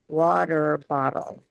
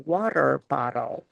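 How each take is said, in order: First: American accent, with the T's softened to D. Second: The same.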